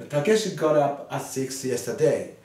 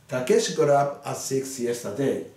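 The two takes are said the same way.

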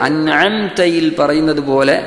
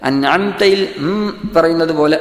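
The two takes are said the same way.

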